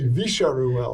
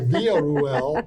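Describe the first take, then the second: First: The double L is said as a sh sound. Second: The double L is said without a sh sound. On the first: "they pronounce it as a sh sound" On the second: "instead of"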